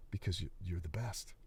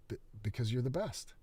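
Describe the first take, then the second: First: Softer, lower, hesitant; frightened stammer. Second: Forced repeat. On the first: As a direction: stammer it out scared. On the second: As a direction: try again under pressure. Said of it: "Say it like you mean it". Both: Acted.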